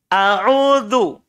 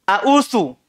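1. Konsonan terakhir itu bunyi seperti z, bersuara. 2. Konsonan terakhir itu bunyi s, tak bersuara. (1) "Za, za" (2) "Salah keluar itu jadi bunyi sa"

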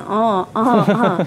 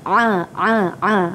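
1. Bunyi ini dihasilkan secara sengau, melalui hidung. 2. Bunyi ini dihasilkan jauh di dalam tenggorokan. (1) "Bukan di hidung ya, bukannya a a a" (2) "makhrajnya ialah di halqum"

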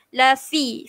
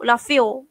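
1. Vokal setelah f adalah 'ee' yang jelas. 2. Vokal setelah f berubah menjadi 'o'.

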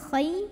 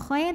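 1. Bunyi kh itu lembut dan halus. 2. Bunyi kh itu kasar dan serak. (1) "tapi khay dilunakan" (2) "bukan khay"

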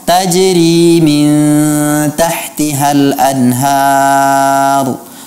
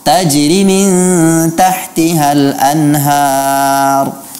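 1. Vokal panjang ditahan dengan panjang penuh. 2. Vokal panjang dipotong pendek. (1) "Seharusnya dibaca" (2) "matnya dihilangkan"

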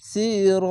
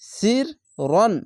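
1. শব্দটি একটি দীর্ঘ 'আ' স্বরধ্বনি দিয়ে শেষ হয়। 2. শব্দটি 'ন' ধ্বনি দিয়ে শেষ হয়। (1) "যদি থামতে হতো তাহলে সি র এভাবে একালিফ টেনে পড়তে হয়" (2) "র আলিফ জাবার রন এভাবে উচ্চারণ হবে"

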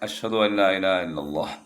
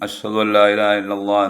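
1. ഈ വാക്യം മെല്ലെ, താഴ്ന്ന സ്വരത്തിലാണ് പറയുന്നത്. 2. ഈ വാക്യം ഉച്ചത്തിൽ, ഉറച്ച സ്വരത്തിലാണ് പറയുന്നത്. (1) "2 വട്ടം മെല്ലെ" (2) "ഉച്ചത്തിൽ 2 വട്ടം"

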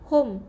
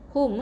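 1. Vokalnya bukan bunyi u yang jelas. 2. Vokalnya adalah bunyi u yang jelas. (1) "bukan hum" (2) "baca dengan bunyi u"

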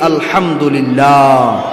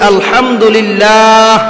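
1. এটি জোরে বলা হয়। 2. এটি আরও জোরে বলা হয়। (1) "জোরে সরি বলি" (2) "আরো জোরে বলি"

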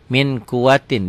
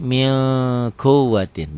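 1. Bunyi n pendek dan biasa saja. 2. Bunyi n ditahan dan bersengau. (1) "ditulisnya tanpa g" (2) "dibacanya jadi min kuwatin, ditahan ya"

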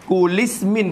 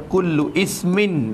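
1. Bunyi u dibuang dan kul disambung ke ismin dengan i. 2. Kata kedua mulai terpisah dengan i glotis. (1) "Kulismin pun tak kena" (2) "Tu jadi tak kena baca"

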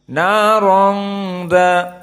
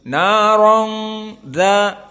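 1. Bunyi keluar melalui hidung. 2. Bunyi keluar melalui hidung.

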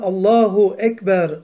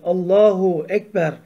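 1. Allah'tan sonraki ünlü korunur, bilerek söylenir. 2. Allah'tan sonraki ünlü korunur, bilerek söylenir.

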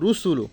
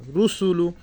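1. ছোট স্বরধ্বনিগুলো তাড়াতাড়ি বলা হয়। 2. ছোট স্বরধ্বনিগুলো টেনে লম্বা করে বলা হয়।

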